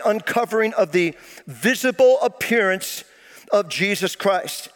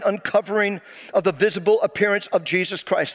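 First: The phrase is read at a slow pace. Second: The phrase is read at a normal pace.

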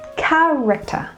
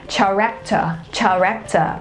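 First: The word begins with a 'k' sound. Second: The word begins with a 'ch' sound. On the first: The speaker calls it right. "it is actually the k sound" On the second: The speaker calls it wrong. "or even with the ch sound"

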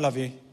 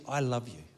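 First: The words are said flatly, without feeling. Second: The words are said warmly, with feeling. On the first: The speaker does not really mean it. The speaker calls it wrong. "if I had looked at her and gone" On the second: The speaker truly means it. The speaker calls it right. "I look her in the eyes and I say to you"

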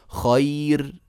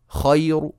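First: The final r is light, with no vowel after it. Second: The final r is heavy, with a faint u after it. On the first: "شايفين الراء مرققة" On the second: "الراء تصير مضمومة وتصير مفخمة"

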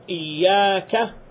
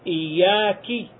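First: The word ends with an a vowel. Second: The word ends with an i vowel. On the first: The speaker calls it right. "instead of iyyaka" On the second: The speaker calls it wrong. "he puts a kasra under the kaf"

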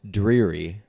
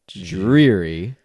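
First: It starts with a clear d and r. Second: It starts with a j-like sound. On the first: The speaker calls it right. "like with a D and an R" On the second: The speaker calls it wrong. "you're really making a J sound"

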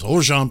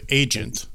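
First: The word is pronounced with French sounds. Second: The word is pronounced with English sounds. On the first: "you pronounce it with a very fancy French kind of word" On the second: "It's spelled agent"

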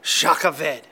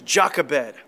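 First: The name is said with Hebrew-style sounds. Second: The name is said with plain English sounds.

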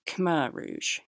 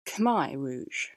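First: It is pronounced the non-Cambodian way. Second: It is pronounced the Cambodian way. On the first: The speaker calls it wrong. "apparently that's not the Cambodian pronunciation" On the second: The speaker calls it right. "It's Khmer Rouge"

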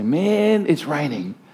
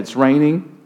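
First: It is said in a cheerful, upbeat tone. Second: It is said in a gloomy, miserable tone.

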